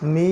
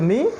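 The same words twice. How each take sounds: First: The vowel is drawn out long. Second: The vowel is short. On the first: "লম্বা করতে হচ্ছে" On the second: "আগে ছিল মিম জের মি"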